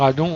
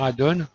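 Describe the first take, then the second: First: The word is pronounced the French way. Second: The word is pronounced the English way. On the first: This is the local way of saying it. "qui reproche à Didier de dire addon" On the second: This is the American way of saying it. "au lieu de dire addon"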